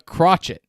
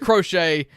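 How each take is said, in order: First: It is not said like the knitting word. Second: It is said like the knitting word. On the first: The speaker calls it wrong. "I purposely mispronounced it" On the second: The speaker calls it right. "that's why it's crochet, like knitting"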